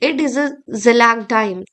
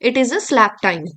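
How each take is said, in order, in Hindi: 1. यह जर्मन लहजे में बोला गया है। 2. यह मानक अंग्रेज़ी लहजे में बोला गया है। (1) "दिस इज हाउ ही यूज्ड टू स्पीक। वो जर्मन एक्सेंट में ऐसे बोलते थे।" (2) "इस इंग्लिश में"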